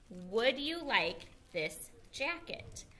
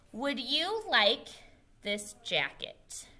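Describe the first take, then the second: First: "Would you like this jacket?" said slowly with a clear rise at the end; slow model question rising up on "jacket"; teacher modelling a question slowly for the class. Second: Said in the usual way. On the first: Shown as a demonstration. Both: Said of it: "we're using it in a question form".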